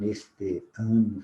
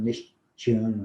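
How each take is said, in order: First: The words are joined without any extra sound. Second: An extra sound links the two words. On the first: The speaker calls it right. "Nós não falamos neste ano" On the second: The speaker calls it wrong. "Fazemos uma emenda aqui com um som que não existe"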